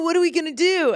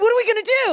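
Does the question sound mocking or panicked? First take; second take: mocking; panicked. First: It sounds mocking and playful, not really worried. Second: It sounds genuinely alarmed and worried. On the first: The speaker thinks the others are only pretending. "Reese thinks that they're just faking it" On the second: The speaker realizes the danger is real. "He switches the line reading"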